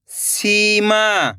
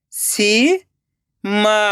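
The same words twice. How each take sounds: First: सीमा joined as one slow word; blended word. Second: सीमा split into सी, long pause, मा; rising सी, then मा alone; syllable by syllable. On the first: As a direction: read Seema whole with drawn-out vowels, falling at the end. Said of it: "खींच के पढ़ना है". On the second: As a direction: sound out Seema very slowly in two parts. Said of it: "एक एक अक्षर का उच्चारण करना है". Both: Shown as a demonstration.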